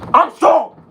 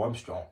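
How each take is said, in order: First: It sounds strong and forceful. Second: It sounds weak and unconvinced.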